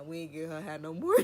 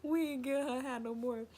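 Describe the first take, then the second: First: Said in the usual way. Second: High, louder mock of the cousin saying "We ain't get her high no more". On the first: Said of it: "my cousin is like". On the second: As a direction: parrot the cousin in a squeaky voice. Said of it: "He was like".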